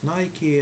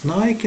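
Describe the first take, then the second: First: The name is pronounced the American way. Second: The name is pronounced the local, non-American way. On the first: The speaker calls it right. "Americans they are pronouncing this word as Nike, and this is the correct pronunciation" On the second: The speaker calls it wrong. "we used to pronouncing this word as Nike in our country"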